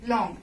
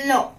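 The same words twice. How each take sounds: First: "long" ending in a sounded ng; English final NG. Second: "lo" with an open o and no G; French silent G. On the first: Teacher contrasts English with French, "long" with ng sounded. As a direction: finish "long" on a full English ng. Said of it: "not long". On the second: Teacher answers how French says it, "lo" without G. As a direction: say "lo" for long, leaving the ending off. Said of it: "how you will pronounce?". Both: Shown as a demonstration.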